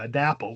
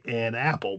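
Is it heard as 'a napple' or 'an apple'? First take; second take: a napple; an apple. First: The n sound begins the second word. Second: The n sound ends the first word. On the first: This is the older form of the word. The speaker calls it wrong. "we don't say uh" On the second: This is the modern form of the word. The speaker calls it right. "we say an apple"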